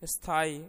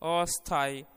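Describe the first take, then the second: First: The word starts directly with the sth cluster. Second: A short a vowel is added before the sth.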